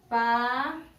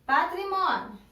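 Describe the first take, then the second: First: "Patrimônio" as pa, tri, mô, nio with long pauses; lower, measured beats on each piece of "Patrimônio"; syllable by syllable. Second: Said in the usual way. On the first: Shown as a demonstration. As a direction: dictate "Patrimônio" one syllable at a time. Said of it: "vão separar em sílabas". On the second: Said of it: "qual é a primeira palavra?".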